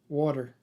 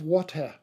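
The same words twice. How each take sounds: First: The word is said in a relaxed, local way. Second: The word is said in a clipped, precise way. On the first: The listener understood it. The speaker calls it right. "we got her to learn to pronounce the word water" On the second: The listener could not understand it. The speaker calls it wrong. "she would very precisely say"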